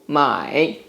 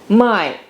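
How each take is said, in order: First: The pitch does not fall steadily downward. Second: The pitch falls steadily from high to low. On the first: It means buy. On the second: It means sell.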